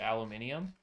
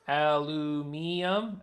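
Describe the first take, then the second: First: The word is said with five syllables. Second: The word is said with four syllables. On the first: "I keep saying aluminium" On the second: "to match the other pronunciation"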